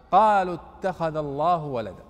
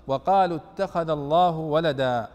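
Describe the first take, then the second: First: قالوا said with no waw, starting straight on the q; reading of Ibn Amir without waw. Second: وقالوا said with its opening waw, slow and clear. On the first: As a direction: drop the waw and begin قالوا on the q, slowly. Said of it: "بدون واو". (بقراءة ابن عامر بدون واو) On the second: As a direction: read وقالوا starting on a clear w sound. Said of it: "وقرأ ابن عامر بغير واو". (بقراءة الجمهور مع الواو) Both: Shown as a demonstration.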